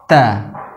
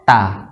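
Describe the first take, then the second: First: The t is followed by a slight puff of breath. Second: The t is followed by no breath at all. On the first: The speaker calls it right. "yang benar adalah ta, tidak terlalu berlebihan" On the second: The speaker calls it wrong. "kalau tidak memberikan sifat hamas sama sekali, bunyinya menjadi ta"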